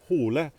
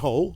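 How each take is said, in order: First: The name is said with Norwegian pronunciation. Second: The name is said with English pronunciation. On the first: "in Norwegian, it's Harry Hole, so it's pronounced Hole" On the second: "in English, it would be Harry Hole"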